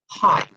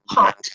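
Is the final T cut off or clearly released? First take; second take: cut off; released. First: The final T is cut off with no release. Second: The final T is clearly released and audible. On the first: "my real natural pronunciation of this word is hot" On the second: "this one I'm pronouncing the T pretty clearly so you can hear it"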